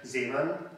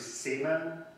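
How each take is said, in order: First: The surname is pronounced the German way. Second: The surname is pronounced the Hungarian way. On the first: "the name itself, however, is of German origin, so I'm going to pronounce it as" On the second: "the Hungarian pronunciation could be I've heard it's"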